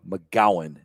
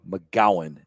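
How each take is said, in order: First: The middle consonant is a hard G sound. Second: The middle consonant is a hard G sound.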